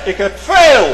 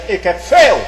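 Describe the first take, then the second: First: Loud, high boastful shout; preacher mocking Esau's loud brag; Esau boasting. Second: A touch of a proud boaster; preacher voicing Esau's mild boast. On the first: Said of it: "Esau roemde". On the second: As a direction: boast it, mildly loud. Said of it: "Esau zegt".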